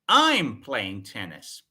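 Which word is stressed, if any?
I'm. The first word is said louder than the rest. It answers who is doing it. "The focus is on I"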